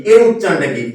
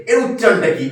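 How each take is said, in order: Both takes have the same delivery.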